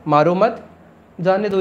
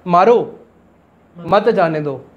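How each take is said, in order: First: "मारो मत" joined and rising, short pause, then "जाने दो"; group "मारो मत" together, then separate "जाने दो"; pause after मत. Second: "मारो" alone and firm, long pause, then "मत जाने दो" together; pause after मारो. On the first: Teacher shows the first of two meanings, pausing after "मत". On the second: Teacher shows the second of two meanings, pausing after "मारो". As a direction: break straight after "मारो", keep "मत" with "जाने दो". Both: Shown as a demonstration. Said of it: "इसके दो मतलब है".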